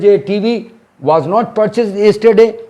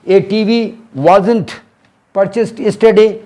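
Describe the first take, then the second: First: 'Was not' is said as two separate words. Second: 'Was not' is contracted into one word, 'wasn't'. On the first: "ऐसे खोल के भी बोलेंगे" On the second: "short में बोलोगे"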